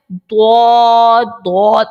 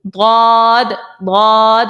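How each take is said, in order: First: ضاد as an over-rounded "dwawd" from the front teeth; ضاد drawn out with a w-like rounded d; over-thickened dad. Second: ضاد as a long heavy "dawd", tongue side on molars; ضاد held, thick d from the side of the tongue; side-tongue dad. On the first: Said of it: "موٹا پڑھنے کے چکر میں وہ غلط پڑھتے ہیں". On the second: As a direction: draw out ضاد without a w glide. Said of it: "side پہ لانا ہے". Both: Shown as a demonstration.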